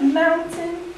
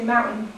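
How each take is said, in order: First: Mountain with a crisp T, moun-tin; clear T. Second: Mountain with a glottal stop, mou'n. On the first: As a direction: say mountain pronouncing the T. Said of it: "instead of mountain". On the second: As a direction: say mountain swallowing the T. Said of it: "I say mountain". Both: Shown as a demonstration.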